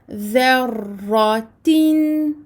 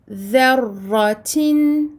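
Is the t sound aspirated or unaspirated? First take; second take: unaspirated; aspirated. First: The t is released without a puff of air. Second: The t is released with a puff of air. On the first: The speaker calls it right. "mais plutôt" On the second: The speaker calls it wrong. "on a tendance à sortir de l'air avec le T"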